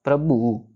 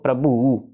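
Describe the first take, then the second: Both takes have the same delivery.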